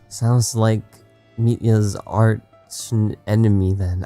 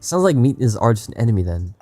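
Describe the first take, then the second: First: It is read slowly. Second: It is read at normal speed.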